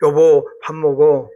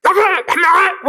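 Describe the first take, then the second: First: Slow, lower, gentle call. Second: High, harsh snapped call; a fierce, high call to come eat. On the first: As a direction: invite the wife kindly to eat. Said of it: "가사는 똑같은데 곡이 다르잖아요". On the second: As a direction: bark the call to eat like a nagging spouse. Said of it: "그 싸나운 말이에요". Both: Shown as a demonstration.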